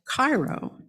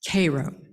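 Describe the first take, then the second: First: It is pronounced like the Egyptian city's name. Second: It is pronounced differently from the Egyptian city. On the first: "like that great city in Egypt" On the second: "deliberately pronounced the name of that town Cairo"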